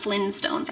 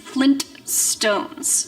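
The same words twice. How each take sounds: First: The T sound in the middle is dropped. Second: The T sound in the middle is pronounced. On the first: The speaker calls it wrong. "I know it's not Flintstones" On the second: The speaker calls it right. "I know there's a T in there"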